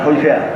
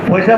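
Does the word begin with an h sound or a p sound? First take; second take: h sound; p sound. First: The word begins with an h sound. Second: The word begins with a p sound. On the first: This is how Feni speakers say it. "তারা বলে হইসা" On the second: This is the standard form. "পয়সা বলে না"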